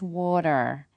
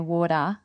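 First: It is said with an American accent, r sounded. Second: It is said with an Australian accent, r dropped. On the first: "if you're from America or Canada, it's water" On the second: "we don't like to pronounce our R's"

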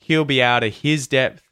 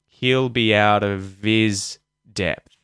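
First: The H is pronounced and 'of' loses its V. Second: The H is dropped and 'of' keeps its V. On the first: "if we had the H's there, we wouldn't use the V sound" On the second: "We'll drop the H's, and so the V sound will appear"

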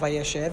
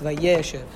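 First: The stress falls on the last syllable. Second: The stress falls on the second syllable. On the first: The speaker calls it wrong. "It's not Vayéshev" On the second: The speaker calls it right. "it's Vayéshev. Because there's a Shofar Holech on the Yud"

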